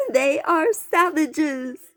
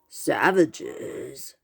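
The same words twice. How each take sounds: First: High, loud, slow outraged cry. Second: Brazen boar voice. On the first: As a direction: cry out in horror at them. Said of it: "Charlene Darling cried". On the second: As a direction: declare it like a proud team name. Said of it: "a brawny boar with a brazen voice". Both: A narrator's reading.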